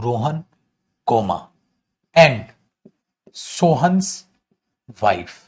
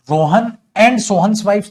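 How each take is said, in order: First: Rohan, comma, and, Sohan's, wife with a break after each; comma spelt out. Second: Rohan and Sohan's wives loud and run on; higher, louder, one phrase from Rohan to wives; no comma pause. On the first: Teacher writing the corrected sentence, word-by-word with pauses. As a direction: dictate piece by piece, Rohan set apart, wife dropped low. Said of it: "लेकिन अगर मैं ऐसे कर दूं". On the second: Teacher quoting the wrong sentence, run together without comma. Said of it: "तो गलत था". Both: Shown as a demonstration.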